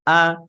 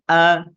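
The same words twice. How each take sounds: The two takes are said the same way.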